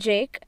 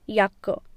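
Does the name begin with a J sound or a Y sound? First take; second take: J sound; Y sound. First: The name begins with a J sound. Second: The name begins with a Y sound.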